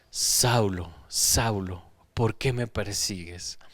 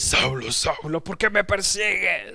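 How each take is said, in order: First: The voice is warm but firm. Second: The voice is loud, aggressive and violent.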